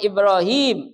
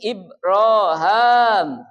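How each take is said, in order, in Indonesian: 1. Namanya berakhir dengan bunyi 'im'. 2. Namanya berakhir dengan bunyi 'am'. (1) "bukan Ibrahim" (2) "dalam satu qiraat ada yang membaca"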